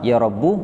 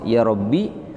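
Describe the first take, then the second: First: The word ends in a short u vowel. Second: The word ends in a short i vowel.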